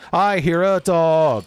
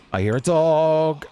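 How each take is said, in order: First: High, loud, drawn-out warning; alarmed call. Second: Slow, raised, drawn-out warning; wary alarm. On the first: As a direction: call out each word slowly and loudly. Repeats the dog warning louder. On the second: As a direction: call it out slowly with mild alarm. Hears an enemy dog in game. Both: Real, not acted.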